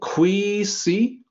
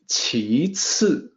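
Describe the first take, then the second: First: The word is read with English sound values. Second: The word is read with Chinese sound values. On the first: The speaker calls it wrong. "looking at this as a native English speaker, you may say" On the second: The speaker calls it right. "No, it's not that in Chinese. It sounds like"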